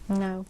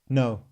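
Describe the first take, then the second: First: It is said softly and gently. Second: It is said harshly, like a villain.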